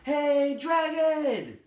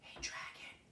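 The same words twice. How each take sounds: First: It is shouted very loudly. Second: It is whispered very softly.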